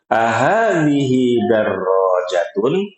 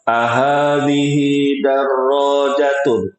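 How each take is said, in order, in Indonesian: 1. Diucapkan dengan nada pertanyaan. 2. Diucapkan dengan nada pernyataan. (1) "Nada bertanya itu" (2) "Itu bukan nada bertanya"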